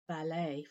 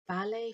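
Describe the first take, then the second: First: It is said with the American pronunciation. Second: It is said with the British pronunciation. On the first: "ballet for Americans" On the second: "ballet for Brits"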